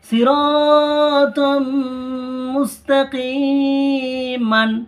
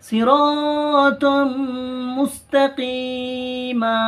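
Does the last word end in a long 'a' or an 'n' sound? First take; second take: n sound; long a. First: The last word ends with an 'an' sound. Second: The last word ends with a lengthened 'a'. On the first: The reading continues without stopping. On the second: The reader stops on this word.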